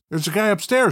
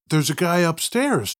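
First: It is said in a put-on character voice. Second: It is said in the speaker's ordinary voice.

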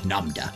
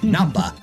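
First: The consonant after 'Nam' is a d sound. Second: The consonant after 'Nam' is a b sound. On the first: The speaker calls it wrong. "I don't know why I said that with a D" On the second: The speaker calls it right.

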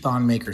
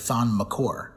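First: The surname sounds like the word 'maker'. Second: The surname sounds like 'mccore'. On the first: The speaker calls it wrong. "we've been pronouncing Thon Maker's name wrong the whole time" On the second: The speaker calls it right. "it's actually Thon McCore"

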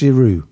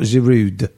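First: The name ends without a D sound. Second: The name ends with a D sound. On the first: The speaker calls it right. "You don't pronounce the D. It's just Giroud" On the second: The speaker calls it wrong. "It's not Giroud"

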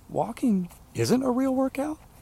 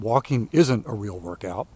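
First: It rises as an incredulous question. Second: It is said as a flat statement.

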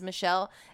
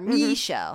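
First: The name is said in a plain accent. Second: The name is said in a Southern accent. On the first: This is the name itself. "his daughter's name is Michelle" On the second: This is how the boss said the name. "he would call her Michelle"

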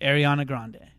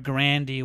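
First: The name ends with an 'ay' sound. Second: The name ends with an 'ee' sound. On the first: This is how most people say it now. "now it's just pronounced [name]" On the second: This is how her family would say it. "it's actually pronounced Grandy"

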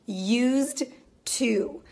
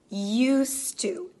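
First: The D is pronounced separately before 'to'. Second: The D is dropped and linked into 'to'. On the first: The speaker calls it wrong. "This is very unnatural sounding" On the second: The speaker calls it right. "We don't really pronounce that final D sound because we connect it with the to"

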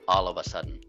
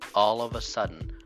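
First: The phrase is said quickly and run together. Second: The phrase is said slowly and carefully.

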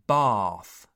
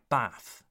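First: The A vowel is long. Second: The A vowel is short. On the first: The speaker calls it right. "The A sound is long, so what you hear is bath" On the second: The speaker calls it wrong. "not bath"

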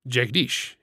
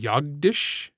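First: The name begins with a J sound. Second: The name begins with a Y sound. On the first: This is the name as first used. "the warrior Jagdish in the first book" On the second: This is the name as changed later. "he changed it to Yagdish"

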